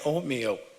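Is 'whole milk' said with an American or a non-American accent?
non-American. It has a non-American accent, sounding like 'oatmeal'. The listener hears a different word. The speaker calls it wrong. "as I I was saying"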